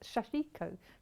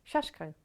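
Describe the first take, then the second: First: A vowel is heard between the sh and k. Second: No vowel is heard between the sh and k. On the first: This is the older pronunciation. "I thought it was Shashiko" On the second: This is the current pronunciation. "Kat kept saying in my ear"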